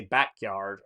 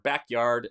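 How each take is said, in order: First: "backyard" with the weight on yard; Southern end stress. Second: "backyard" with the weight on back; Southern front stress. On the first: Streamer attempting a Southern example, stressing the end of "backyard". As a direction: lean on the second half of "backyard". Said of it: "emphasize the end of the word". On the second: Streamer correcting his Southern example, stressing the front of "backyard". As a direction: punch the first half of "backyard". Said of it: "sorry, the front of the word". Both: Shown as a demonstration.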